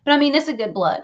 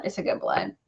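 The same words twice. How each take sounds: First: Said in the usual way. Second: Much lower and much softer, in a rumbling undertone; deep mock echo. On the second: Echoing her own words to viewers, much lower and softer. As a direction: drop to a low mock-solemn murmur. Line repeated in a new voice.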